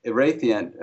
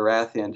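First: Erathian with a long "ay" in the stressed syllable; long-a pronunciation. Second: Erathian with a short flat "a" as in "wrath"; short-a pronunciation. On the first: Language consultant offering one way to say it, Erathian with a long "ay". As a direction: say Erathian as "ih-RAY-thee-un". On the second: Language consultant offering the alternative, Erathian with a short "a". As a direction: say Erathian as "ih-RATH-ee-un". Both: Shown as a demonstration. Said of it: "depending on how you pronounce it".

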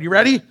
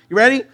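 First: Said in the usual way. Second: Higher, louder repeat of the question; more eager ask. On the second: Real, not acted. Pastor hyping the congregation before the next song, more eager. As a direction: push them to get ready. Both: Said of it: "here's just one word".

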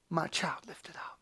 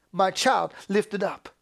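First: Low, whispered assurance; barely audible, reverent murmur; hushed. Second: Firm, full-voiced proclamation; emphatic and sure; crying out. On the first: Acted. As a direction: whisper it tenderly, fading away. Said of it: "In the spirit that cries out". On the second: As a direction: declare it plainly from the pulpit. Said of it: "God cries out".

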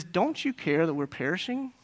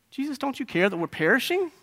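First: Quietly reproachful question; a soft, acted accusation ending on a rise; accusatory. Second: High, pleading reproach; acted accusation, pitched up to a rising end; accusatory. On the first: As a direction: put the blame in softly. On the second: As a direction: demand an answer in a raised pitch. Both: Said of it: "in a very accusatory way".

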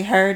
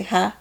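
First: Said in the usual way. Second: "huh" for her, with the R dropped; Chicago pronunciation. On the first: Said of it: "You ever hear people in Chicago say". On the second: Shown as a demonstration. Host showing co-host how Chicagoans say her, "huh" without the R. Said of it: "they say huh".

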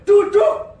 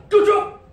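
First: Even louder, sharper shout of sit down. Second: Sharp loud shout of sit down; shouted command. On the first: Parent shouting louder after the child refuses to sit. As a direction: raise the voice further to force obedience. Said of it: "suaraku lebih kenceng". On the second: Parent shouting at a fighting child to sit. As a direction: order the child to sit, loudly. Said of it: "Lalu saya ngomong". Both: Retold or imitated.

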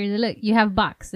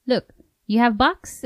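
First: Slow imitating broken English; Asian doctor accent. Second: Put-on Asian doctor accent. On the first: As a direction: mimic the doctor's accent slowly. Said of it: "The doctor". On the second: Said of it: "he told her".

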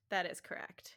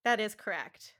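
First: Whispered confirmation. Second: Said in the usual way. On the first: Shown as a demonstration. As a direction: breathe it in a whisper. Repeat is whispered.

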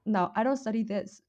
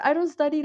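First: Said in the usual way. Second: "don't" pushed higher and louder; high, loud emphatic denial; loud insistence. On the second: Real, not acted. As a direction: loudly insist "I don't study". Insists she doesn't study it.

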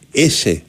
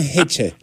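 First: "Έσε" said with a plain s and no opening h; South American pronunciation. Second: "Χέτσε" with an audible opening h and a ts; German pronunciation. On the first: Showing the host how the player's name is pronounced, South American "Έσε". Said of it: "με την προφορά που προφέρονται". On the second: Joking about the name in German, pronounced "Χέτσε" with h and ts. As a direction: say "Χέτσε" German-style, h first, then ts. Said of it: "Στα γερμανικά θα λεγόταν Χέτσε". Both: Shown as a demonstration.

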